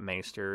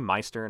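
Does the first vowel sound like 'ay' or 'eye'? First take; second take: ay; eye. First: The first vowel sounds like 'ay'. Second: The first vowel sounds like 'eye'.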